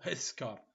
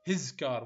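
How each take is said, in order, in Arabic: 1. الكلمة his تنتهي بصوت s صفيري. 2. الكلمة his تنتهي بصوت z مجهور. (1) "مو هس كار" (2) "هز كار مو هس كار"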